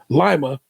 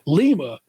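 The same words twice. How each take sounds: First: It is pronounced like the lima bean. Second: It is pronounced like the capital of Peru. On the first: It names the city in Ohio. "like the bean" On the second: It names the city in Peru. "Lima is in Peru"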